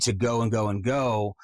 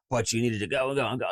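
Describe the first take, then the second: First: Said in the usual way. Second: "go and go and go" run together quickly; rushed. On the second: Shown as a demonstration. Coach mimics a long monologue, rushed. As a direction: rattle it off fast.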